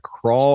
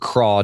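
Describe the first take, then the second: First: The word ends with an L sound. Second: The word ends without an L sound. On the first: "I say crawl because like your, you know, your pants crawl up there" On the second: "Some people say craw"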